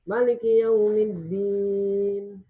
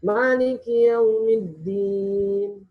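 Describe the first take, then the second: First: The first vowel of Maliki is kept short. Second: The first vowel of Maliki is drawn out long. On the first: It follows the reading of Duri from Abu Amru. "Maliki Yaumiddinnya harus pendek" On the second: It follows the reading of Hafs from Asim. "kita Maliki Yaumiddin harus panjang"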